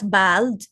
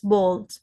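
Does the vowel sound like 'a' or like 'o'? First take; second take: a; o. First: The vowel sounds like a short 'a'. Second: The vowel sounds like an 'o'. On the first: The speaker calls it wrong. "not A L" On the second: The speaker calls it right. "you pronounce it as O L"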